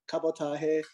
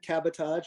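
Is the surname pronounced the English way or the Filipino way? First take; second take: Filipino; English. First: The surname is pronounced the Filipino way. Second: The surname is pronounced the English way.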